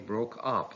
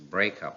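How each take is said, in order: First: The stress is on the second part. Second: The stress is on the first part. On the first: It is used as a verb. "The verb takes stress on the second part" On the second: It is used as a noun. "the noun takes stress on the first part"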